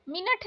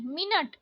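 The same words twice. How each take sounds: First: मिनट ending in aspirated th; wrong pronunciation. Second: मिनट ending in plain t; no puff closing मिनट; correct pronunciation. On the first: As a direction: say मिनट as "minath". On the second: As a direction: say मिनट as "minat". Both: Shown as a demonstration. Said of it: "मिनट नहीं".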